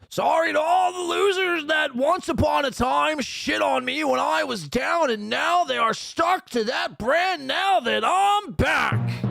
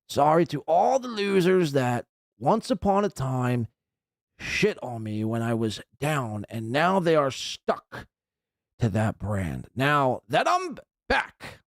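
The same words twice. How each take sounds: First: It is read out in a yelling voice. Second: It is read out in a calm voice.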